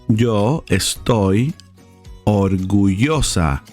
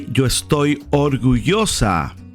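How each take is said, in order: First: The phrase is said slowly and carefully. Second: The phrase is said at a normal speed.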